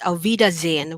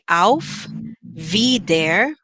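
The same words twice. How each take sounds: First: It is said fast with the h dropped. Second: It is said at a careful, ordinary pace.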